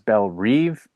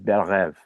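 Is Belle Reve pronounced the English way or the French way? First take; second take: English; French. First: It is pronounced with English-style sounds. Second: It is pronounced with French-style sounds. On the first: The speaker calls it wrong. "they keep pronouncing as Belle Reve, and that's not how you pronounce it" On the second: The speaker calls it right. "It's a French term. The correct pronunciation is Belle Reve"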